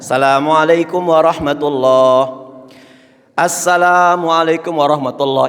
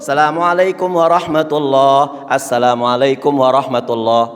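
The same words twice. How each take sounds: First: There is a pause between the two greetings. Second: There is no pause between the two greetings. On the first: The speaker calls it wrong. "Ini nggak ittiba Rasul" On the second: The speaker calls it right. "Nggak ada jeda"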